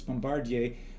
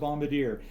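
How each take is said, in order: First: The word has a French pronunciation. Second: The word has an English pronunciation. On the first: It names the company that makes trains. "If you're the company making it, it's Bombardier" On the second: It names a person who drops bombs. "If you're dropping bombs, you're the bombardier"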